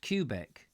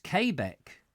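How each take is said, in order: First: "Quebec" pronounced like "cue" plus "beck"; Quebec as KYOO-bek. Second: "Quebec" pronounced kay-BEK, first vowel as in "day". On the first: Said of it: "I've always called it Quebec". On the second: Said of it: "it's pronounced Quebec". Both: Shown as a demonstration.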